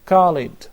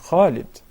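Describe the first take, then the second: First: It begins with a plain English k. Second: It begins with the Arabic letter kha. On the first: The speaker calls it wrong. "and they say Khalid" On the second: The speaker calls it right. "while it is Muhammad and Khalid"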